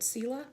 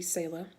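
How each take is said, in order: First: Selah with a long "ee" first, SEE-lah; pronounced SEE-lah. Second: Selah with "ay" in the first syllable; alternative pronunciation SAY-lah. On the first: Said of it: "That's how I say it in my head". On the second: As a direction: say Selah as SAY-luh. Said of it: "I guess it could be". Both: Shown as a demonstration.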